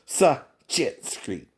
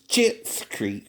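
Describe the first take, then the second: First: The name starts with a separate S sound. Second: The name starts without an S sound. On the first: "either silent it or Sachit's Creek" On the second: "you can't say the S"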